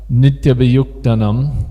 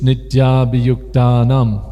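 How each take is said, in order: First: The second long A is weak. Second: The second long A is strong. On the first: The speaker calls it wrong. "It's not" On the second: The speaker calls it right. "See that the second A is strong"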